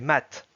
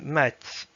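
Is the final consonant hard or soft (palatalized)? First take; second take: hard; soft. First: The final t is hard, not palatalized. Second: The final t is soft, palatalized. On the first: "s'il n'y avait pas le petit signe mou, ça donnerait mat" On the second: "on voit bien que la dernière syllabe est mouillée. Juste ici avec ce son, ça donne mat"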